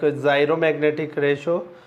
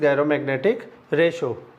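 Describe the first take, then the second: First: The word begins with a hard g sound. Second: The word begins with a j sound. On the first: The speaker calls it wrong. "some of the teachers or students pr pronounce it like" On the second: The speaker calls it right. "the correct pronunciation is"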